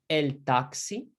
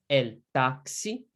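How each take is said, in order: Both takes have the same delivery.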